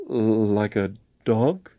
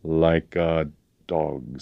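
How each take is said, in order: First: Slow, faltering question with rising end; nervous, drawn-out query. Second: Slow, grim, falling statement; heavy, measured threat; grim confirmation. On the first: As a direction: echo it haltingly in alarm. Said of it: "faltered James". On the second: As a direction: repeat it with deliberate menace. Colonel grimly confirms the threat. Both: A narrator's reading.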